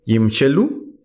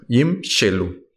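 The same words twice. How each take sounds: First: Said in the usual way. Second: Yimshelu said slowly, each syllable clear, the first vowel sounded; slow teaching pronunciation of Yimshelu; pronounced slowly. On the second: Shown as a demonstration. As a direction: spell out Yimshelu slowly for students. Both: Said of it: "Lo estamos pronunciando".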